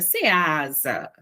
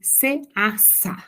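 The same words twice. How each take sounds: First: The second S is said as a buzzing Z. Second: The second S is said as a hissing S. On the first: A parent's correction of the child's reading. "o S tem som de Z" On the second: A child's first attempt at reading the sign. "o S tem som de Z"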